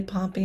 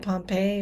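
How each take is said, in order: First: Pompey ending in a short "ee"; Pompey as POM-pee. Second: Pompey ending in an "ay" sound; Pompey as pom-PAY. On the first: Citing how they say the name, Pompey as POM-pee. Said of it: "they say Pompey instead of Pompey". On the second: Giving the expected version of the name, Pompey as pom-PAY. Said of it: "instead of Pompey". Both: Shown as a demonstration.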